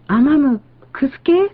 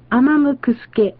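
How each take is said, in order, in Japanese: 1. 最後の音で高さが上がります。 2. 最後は高さが変わらないか、下がります。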